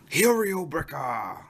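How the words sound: The name is said with a Korean pronunciation.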